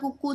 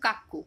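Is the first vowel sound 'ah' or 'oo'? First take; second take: oo; ah. First: The first vowel sounds like 'oo'. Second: The first vowel sounds like 'ah'. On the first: It is said this way to remember the spelling. The speaker calls it wrong. "বানানের জন্য আমরা কুকু উচ্চারণ করতাম যাতে ভুল না হয়" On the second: This is how the word is really pronounced. The speaker calls it right. "ওটা অ্যাকচুয়াল উচ্চারণ কিন্তু কাকু"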